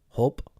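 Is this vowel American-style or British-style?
American. The vowel is quicker and shorter. "Americans will be like um"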